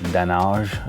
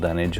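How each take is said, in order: First: The word is said in a French-style way. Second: The word is said in a plain English way. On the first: "as they may say in France" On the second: "I believe it's called dunnage"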